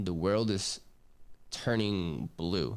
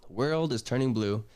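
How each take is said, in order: First: Slowed right down, trailing off on "turning blue"; dazed slow drawl. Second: "The world is turning blue" restated firmly, stress on "world"; emphatic repeat. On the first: Retold or imitated. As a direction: let "turning blue" drift out slow and lower, like the world is tilting. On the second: Shown as a demonstration. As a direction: hammer home "world" so they remember it. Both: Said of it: "I want you guys to remember blue".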